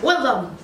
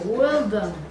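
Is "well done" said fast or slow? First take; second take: fast; slow. First: The phrase is said quickly. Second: The phrase is said slowly. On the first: "lo dice más rápido" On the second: "lo dice tan lento"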